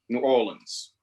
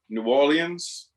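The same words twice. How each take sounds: First: New is said fully, then a clipped Orlins. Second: Orleans is said in a French-like way. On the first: "almost like N E W with a little apostrophe O R L I N S" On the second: "which is closest to the original French"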